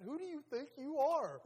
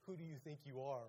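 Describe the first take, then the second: First: Loud, high mock-outraged yell; acted confrontation. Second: Said in the usual way. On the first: Preacher mimics someone challenging a person, loud mock outrage. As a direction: fire it out as a hammed-up challenge.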